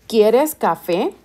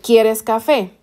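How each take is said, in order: First: It is said with question intonation. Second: It is said with statement intonation.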